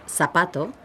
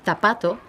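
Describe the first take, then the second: First: The z sounds like an s. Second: The z sounds like an English th. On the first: This is the Latin American accent. "Latin Americans pronounce the letter Z as an S" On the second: This is the accent of Spain. "where we would pronounce it th"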